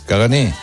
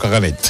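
First: The word ends on a vowel, no final consonant. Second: The word ends with a clear t sound. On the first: The speaker calls it right. "lleva R, cagané, pero no se pronuncia" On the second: The speaker calls it wrong. "no caganet"

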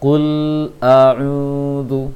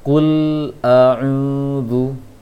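Both takes have the same delivery.

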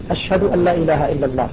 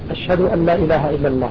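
Both takes have the same delivery.

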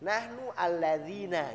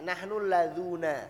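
First: The relative pronoun is said with an 'i' vowel. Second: The relative pronoun is said with a 'u' vowel. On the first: This is the commonly used standard form. "Kalau yang sering kita pakai nahnu alladzina" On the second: This is the form used by one tribe's dialect. "contoh syair Bani Huzail yang pakai alladzuna"

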